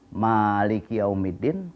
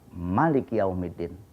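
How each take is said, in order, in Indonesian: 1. Vokal pertama dari Maliki panjang. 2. Vokal pertama dari Maliki pendek. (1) "pakai alif" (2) "Ada yang tidak pakai alif"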